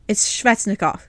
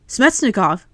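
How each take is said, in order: First: The name begins with an 'sv' sound. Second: The name begins with an 'sm' sound. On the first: The speaker calls it right. "There is no M in Svechnikov" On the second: The speaker calls it wrong. "like with S M Smetsnikov"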